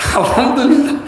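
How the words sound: It is said happily, with a smile.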